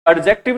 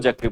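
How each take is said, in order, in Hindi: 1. d की आवाज़ साफ़ बोली जाती है। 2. d की आवाज़ बोली नहीं जाती। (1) "एडजेक्टिव ना बोलकर" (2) "वहां पर जो डी की साउंड होती है वो क्या होती है? साइलेंट होती है।"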